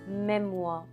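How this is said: The final R sound is dropped. "drop the R's at the end and say memoir"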